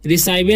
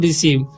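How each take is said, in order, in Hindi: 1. दूसरा स्वर 'eye' जैसा लगता है, अंत 'vay'। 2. दूसरा स्वर 'ee' जैसा लगता है, अंत 'v'। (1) "रिसाइवे नहीं पढ़ते हैं" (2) "इसे पढ़ते हैं हम लोग रिसीव"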